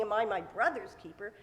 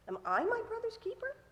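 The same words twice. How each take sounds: First: "brother's" carries the weight, "I" passed over; stress on BROTHER'S. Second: "I" leaned on, rising very high into a question; stress on I. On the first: What Cain isn't saying to God, "brother's" stressed. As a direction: ask it leaning on "brother's", no surprise on "I". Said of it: "Cain isn't saying". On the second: Cain throws the blame back at God, stressing "I". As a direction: ask it incredulously, weight on "I". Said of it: "that's where the emphasis should be". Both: Shown as a demonstration.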